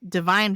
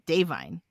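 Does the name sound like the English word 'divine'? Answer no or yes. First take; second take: yes; no. First: It sounds like the English word divine. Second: It does not sound like the word divine. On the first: The speaker calls it wrong. "It's not Divine" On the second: The speaker calls it right. "It's Davine. Like that"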